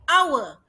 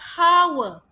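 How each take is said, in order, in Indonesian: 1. Kata ini diawali dengan vokal, tanpa bunyi h. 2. Kata ini diawali dengan bunyi h. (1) "We say hour. O, kita akan dengar bunyi O-nya" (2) "Kita tidak bilang hour"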